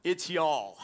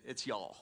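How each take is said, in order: First: "y'all" punched louder as one syllable; stress on y'all. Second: Said in the usual way. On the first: Shown as a demonstration. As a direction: correct them, hitting "y'all". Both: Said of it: "I heard somebody just say you all".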